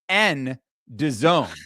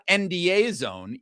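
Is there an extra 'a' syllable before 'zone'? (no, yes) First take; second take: no; yes. First: No extra syllable comes before 'zone'. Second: An extra 'a' syllable comes before 'zone'. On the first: The speaker calls it right. "It is N N D zone" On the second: The speaker calls it wrong. "I've been corrected that it is not"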